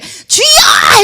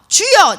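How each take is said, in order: First: The word is said loudly and forcefully. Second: The word is said short and clipped. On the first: "크게 주여 해도 되고요" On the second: "짧게 해도 되고요"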